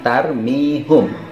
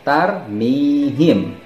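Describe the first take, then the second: First: The vowel after the h is u. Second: The vowel after the h is i. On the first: The speaker calls it wrong. "bukan tarmihum" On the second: The speaker calls it right. "maka akan dibaca tarmihim"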